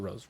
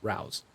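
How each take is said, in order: First: The vowel rhymes with 'go'. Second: The vowel rhymes with 'cow'. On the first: The speaker calls it wrong. "not rows" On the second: The speaker calls it right. "Rouse, not rows"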